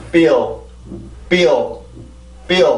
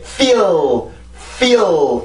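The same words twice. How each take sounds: First: Short "feel" with a light touched L, falling; light final L. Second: "feel" with a drawn-out, heavy L, pitch lifting; "feel" stretched long on a pressed L; overdone final L. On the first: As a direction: say "feel" briefly, tongue just tapping for the final L. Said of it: "그냥 터치만 해주면 돼요". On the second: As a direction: drag out the end of "feel" as a wrong example. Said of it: "이렇게 나는 게 아니라". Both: Shown as a demonstration.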